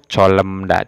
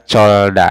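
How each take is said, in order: First: An l and an m come before da. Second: Only an l comes before da. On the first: "atau colemda, tidak" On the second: "tidak dibaca colda"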